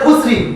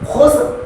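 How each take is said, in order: First: The word ends with an added vowel after r. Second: The word ends on the r with no vowel. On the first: The speaker calls it wrong. "অনেকে বলে খুসরি" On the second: The speaker calls it right. "খুব মনোযোগ সহকারে লক্ষ্য করুন"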